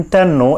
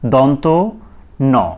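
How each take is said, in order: First: The two parts run together as one word. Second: The two parts are said as separate words. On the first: The speaker calls it wrong. "এইভাবে করে বাচ্চাদের শেখান" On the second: The speaker calls it right. "সঠিক উচ্চারণটা হচ্ছে এইটা"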